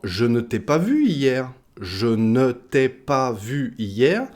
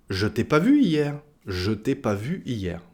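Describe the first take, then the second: First: "je ne t'ai pas vu hier" word by word, ne sounded; full negation. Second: "je t'ai pas vu hier" with no ne, je still voiced; dropped ne. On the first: Teacher giving the full form, "je ne t'ai pas vu hier" with ne kept. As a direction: spell out "je ne t'ai pas vu hier" carefully with every syllable. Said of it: "ça donnera en français parlé". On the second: Teacher showing quicker spoken French, "je t'ai pas vu hier" without ne. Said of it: "pour parler plus rapidement". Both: Shown as a demonstration.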